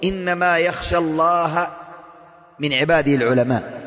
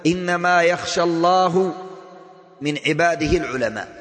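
First: Slow recitation with الله ending in a and العلماء ending in u; correct vowel reading. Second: Slow recitation with الله ending in u and العلماء ending in a, the mistake; wrong vowel reading. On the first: Preacher reciting the correct vowels of the verse slowly. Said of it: "بالفتح ليس بالضم". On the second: Preacher reciting the wrong vowels of the verse slowly. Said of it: "كفر". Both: Shown as a demonstration.

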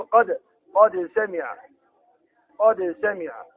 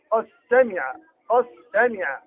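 First: "قد سمع" with the dal of قد said clearly and slowly before سمع; إظهار الدال. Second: "قد سمع" with the dal merged into the seen, no dal heard; إدغام الدال. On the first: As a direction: read قد سمع slowly, keeping the dal distinct. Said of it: "هنا نقرأ الدال". (إظهار الدال في "قد سمع" بقراءة بطيئة) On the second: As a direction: blend قد into سمع, dropping the dal. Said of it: "يدغمون الدال". (إدغام الدال في السين في "قد سمع") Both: Shown as a demonstration.

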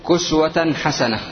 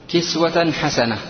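First: "كسوة" with a short u after the k, kuswa; "كسوة" pronounced kuswa, u in first syllable; variant vowelling. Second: "كسوة" with a short i after the k, kiswa; "كسوة" pronounced kiswa, i in first syllable; variant vowelling. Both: Shown as a demonstration. Teacher gives two vowellings of word.

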